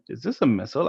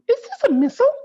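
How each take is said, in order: First: It is said in the reader's normal voice. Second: It is said in a put-on character voice.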